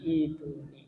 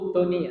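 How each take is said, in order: First: The word begins with an 'i' vowel. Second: The word begins with a 'u' vowel. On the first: The speaker calls it right. "tapi ituni" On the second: The speaker calls it wrong.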